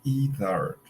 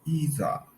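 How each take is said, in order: First: It is said in an American accent. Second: It is said in a British accent. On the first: "but in American English sounds either" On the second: "in British English sounds either"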